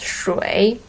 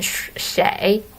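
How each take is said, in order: First: The word sounds like 'shway', with a 'wei' vowel. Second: The word sounds like 'shay', with an 'ei' vowel. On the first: This is the official form, used on formal occasions. "officially this word should be pronounced as" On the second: This is the everyday conversational form. "in daily conversation, Chinese people tended to use the pronunciation 谁 instead of shui"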